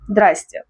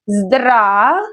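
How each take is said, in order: First: It is said quickly with syllables dropped. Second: It is said slowly with every syllable.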